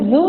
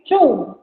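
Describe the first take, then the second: First: The word begins with a buzzing z sound. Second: The word begins with a ts sound. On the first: The speaker calls it wrong. "bukan bukan zu ya teman-teman" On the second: The speaker calls it right. "Z dibaca C sehingga dibaca cu"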